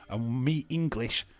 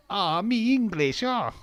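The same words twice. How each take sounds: First: Said in the usual way. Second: "me English" in a higher, louder, slow put-on foreign accent; mock accent, hammed up. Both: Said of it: "Let's not do a racist accent".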